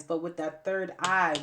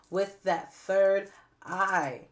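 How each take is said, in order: First: Said in the usual way. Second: "third" hit hard, words drawn out very slowly and louder; emphatic stress. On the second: Shown as a demonstration. Urging viewers to use their third eye, slow emphatic stress. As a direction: lean on "third" and stretch every word. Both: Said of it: "I cannot emphasize this enough".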